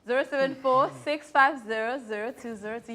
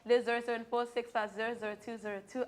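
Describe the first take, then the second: First: The number is said more slowly. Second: The number is said at normal speed.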